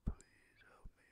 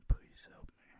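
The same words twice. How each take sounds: First: Slow whisper; a slow, faint whispered plea. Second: Loud, forceful whisper; a loud whispered plea for help. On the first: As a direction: let the plea drift out slowly, barely voiced. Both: Acted. Pleading at 4:57 am.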